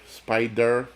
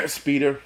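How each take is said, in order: First: Said in the usual way. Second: "Speeder" with a long ee vowel, slightly higher; "Speeder" said as SPEE-der, a slip; wrong name. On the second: Shown as a demonstration. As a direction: misspoken "Speeder" before the fix.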